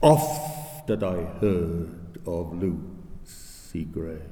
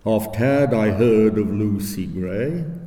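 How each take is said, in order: First: It follows natural conversational stress. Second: It follows a regular iambic beat.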